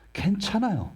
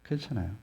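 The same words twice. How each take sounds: First: 괜찮아요 sung out much higher with a falling end; high reassurance. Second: 괜찮아요 said much softer, at normal pitch, falling; soft reassurance. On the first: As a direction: lift 괜찮아요 high, then let it fall. (괜찮아요를 높게 올렸다 내리며) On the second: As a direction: breathe 괜찮아요 gently, almost to oneself. (괜찮아요를 조용히 부드럽게) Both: Shown as a demonstration. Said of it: "여전히 부족하도 괜찮다고요".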